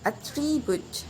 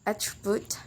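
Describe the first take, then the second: First: "attribute" stressed on the second syllable, at-TRIB-ute; verb stress. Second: "attribute" stressed on the first syllable, AT-tribute; noun stress. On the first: Teacher shows the verb form, stressing "-trib-" in "attribute". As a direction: lift and lengthen "-trib-" in "attribute". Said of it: "stress put in the second syllable". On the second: Teacher shows the noun form, stressing "at-" in "attribute". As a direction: softly put the weight on "at-" in "attribute". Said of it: "uh, noun". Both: Shown as a demonstration.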